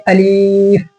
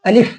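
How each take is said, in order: First: अलीफ with a long drawn-out "ee"; over-dragged अलीफ, "aleeeef"; wrongly lengthened vowel. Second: अलिफ said quickly with a short "i"; crisp, unstretched अलिफ; short vowel. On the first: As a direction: stretch the second vowel of अलीफ far too long. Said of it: "इसको ऐसे नहीं पढ़ेंगे". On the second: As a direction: keep अलिफ brief, no stretching. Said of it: "ये हो जाएगा गलत". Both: Shown as a demonstration.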